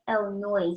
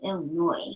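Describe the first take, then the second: First: The final s is pronounced aloud. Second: The final s is left silent. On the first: The speaker calls it wrong. "Why some people say Illinois" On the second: The speaker calls it right. "the S is silent"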